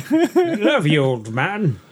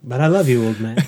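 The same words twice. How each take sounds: First: Silly high voice. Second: Said in the usual way. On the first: Pretend. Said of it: "repeats it in put-on voice".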